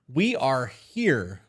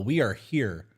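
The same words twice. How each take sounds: First: Stretched slowly; each word drawn out slowly. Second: Said in the usual way. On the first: Shown as a demonstration. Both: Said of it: "repeated, stretched out".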